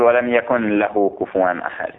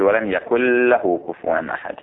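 First: "يكن" with a clear nun before "له", no merging; the wrong way: يكنْ لهُ, nun pronounced fully; unmerged nun. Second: "يكن له" merged as يكلّه, doubled lam; the right way: nun swallowed into the lam. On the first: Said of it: "ما تقول". (إظهار النون في "يكن له" خطأً) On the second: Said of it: "تقول". (إدغام النون في اللام: "يكلّه") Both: Shown as a demonstration.

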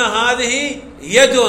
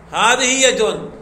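First: "هذه يد" said very slowly, each word drawn out; slow example. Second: Said in the usual way. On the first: Shown as a demonstration. (نطق "هذه يد" ببطء شديد) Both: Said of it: "في قولنا".

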